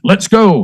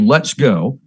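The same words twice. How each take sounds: First: It is said in a dramatic, forceful way. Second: It is said in a plain, flat way.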